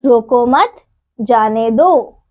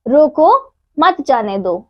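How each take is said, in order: First: रोको मत joined and rising, pause, then जाने दो falling; pause after मत. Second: रोको set apart with a rising end, pause, then मत जाने दो falling; pause after रोको. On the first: Teacher showing children the reversed meaning, pause moved after मत. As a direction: run रोको मत together, stop, then जाने दो. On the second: Teacher showing children how a pause changes meaning, pause after रोको. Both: Shown as a demonstration. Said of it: "विराम चिन्ह के कारण अर्थ उल्टा".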